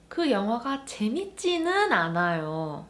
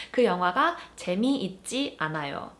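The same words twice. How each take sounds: First: 재밌지는 pressed with extra weight; stress on 재밌지는. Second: Said in the usual way. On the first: Shown as a demonstration. Teacher adding 는, stressing 재밌지는. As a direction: hit 재밌지는 to hedge the claim. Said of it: "I'm adding emphasis to that 재밌다". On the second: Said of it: "just for the sake of an example".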